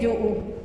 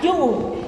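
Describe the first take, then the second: First: The word is said plainly without extra marking. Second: The word is strongly marked and exaggerated. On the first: The speaker calls it right. "sino que es yu" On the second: The speaker calls it wrong. "no lo marcamos así tan yu"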